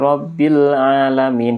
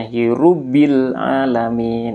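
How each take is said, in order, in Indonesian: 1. Kata pertama dibaca dengan vokal 'a'. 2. Kata pertama dibaca dengan vokal 'u'. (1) "Dia membaca Alhamdulillahi Rabbil Alamin" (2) "dibaca Hirubbil Alamin"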